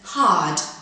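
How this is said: The r sound is silent after the vowel. "in received pronunciation"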